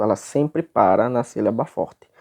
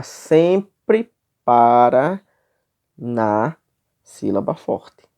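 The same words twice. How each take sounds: First: Said in the usual way. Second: "sempre para na sílaba forte" very slow, a pause after "para" and "na"; ênfase pausada. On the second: Shown as a demonstration. Professor enfatiza regra da metrificação. ("sempre para na sílaba forte" devagar, com pausas)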